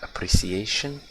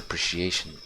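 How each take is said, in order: First: The word is said with a British accent. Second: The word is said with an American accent. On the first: "I think it's British pronunciation of this word" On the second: "I speak more American accent"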